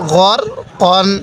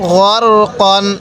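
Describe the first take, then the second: Both takes have the same delivery.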